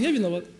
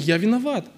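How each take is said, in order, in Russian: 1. Фраза произносится тихо. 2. Фраза произносится громко. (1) "А человек готов признать, но тихо" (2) "он говорит это громко"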